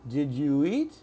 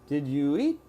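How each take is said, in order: Both takes have the same delivery.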